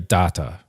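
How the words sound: The word is said with a New Zealand pronunciation. "New Zealanders say data"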